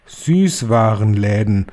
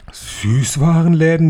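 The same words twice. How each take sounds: First: Slow, drawn-out reveal of Süßwarenläden; slow proclamation of Süßwarenläden; announcing. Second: Higher, louder, slow gasped Süßwarenläden?; higher, loud, astonished Süßwarenläden?; gasping. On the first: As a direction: stretch out Süßwarenläden like a grand reveal. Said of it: "rief die Hoch- und Großmeisterhexe". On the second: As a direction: gasp out Süßwarenläden? in disbelief. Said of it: "japsten sie". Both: Acted.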